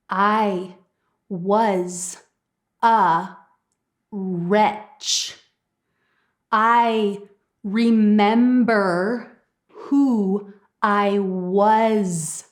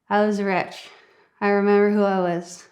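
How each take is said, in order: First: Every word is clear, with strong, crisp consonants. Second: The words are slurred, with weak, mumbled consonants. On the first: The speaker calls it right. "you would say" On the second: The speaker calls it wrong. "Let me tell you how you wouldn't say it"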